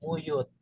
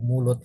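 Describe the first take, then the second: First: The middle consonant is a Y sound instead. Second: The middle consonant is a clear L sound. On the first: The speaker calls it wrong. "saya menggunakan bahasa plesetan, muyut" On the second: The speaker calls it right. "artikulasi kata yang tidak jelas. Kita misalkan menyebut mulut"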